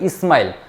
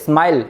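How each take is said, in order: First: The word starts with an added i vowel. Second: The word starts directly with the s sound. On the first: This is an easier form used by less-schooled speakers. "તો ઘણા કહે ઇસ્માઇલ" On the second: This is the original form of the word. "સ્માઇલ એવું બોલો"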